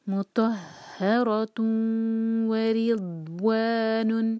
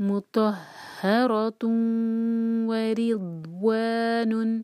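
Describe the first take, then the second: No difference in how they are said.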